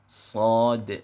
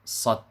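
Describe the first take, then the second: First: The word ends in a d with a bouncing echo. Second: The word ends in a d with no echo. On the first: The speaker calls it right. "yang betul pengucapannya adalah huruf shad" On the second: The speaker calls it wrong. "ada yang baca huruf sad tanpa qalqalah"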